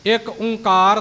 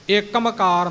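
First: The middle is a single nasal o: Onkar. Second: It is run together with an m sound: Ikmkar. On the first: "ਇੱਕ ਓਂਕਾਰ ਨਹੀਂ" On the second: "ਇੱਕਮਕਾਰ ਨਹੀਂ"

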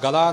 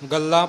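First: The l is single and the ending oral. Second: The l is doubled and the ending nasal. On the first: The speaker calls it wrong. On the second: The speaker calls it right.

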